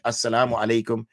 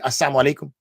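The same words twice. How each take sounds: First: The greeting is said carefully, every syllable clear. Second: The greeting is rushed, with a syllable slurred away. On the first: It wishes peace upon the listener. "he thought we said assalamu alaikum" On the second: It wishes death upon the listener. "so they'd say it quickly"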